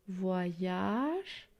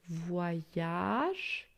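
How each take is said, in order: The two takes are said the same way.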